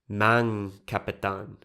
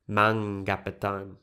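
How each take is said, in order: First: The k sound is kept after mang. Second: The k sound is dropped after mang. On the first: This is the partial assimilation used with loanwords. "they would be reluctant to delete k" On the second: This is the full assimilation process. "the consonant k is deleted"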